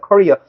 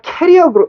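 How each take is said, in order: First: The word sounds like 'career'. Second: The word sounds like 'carrier'. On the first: The speaker calls it right. "이거 발음 career다" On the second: The speaker calls it wrong. "좀 캐리어라고 좀 안 그랬으면 좋겠어"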